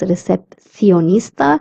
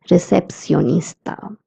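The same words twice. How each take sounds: First: The c is said with a lisped th sound. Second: The c is said with a plain s sound. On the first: "a person from Spain would pronounce this word as" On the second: "a person from Latin America would pronounce it as"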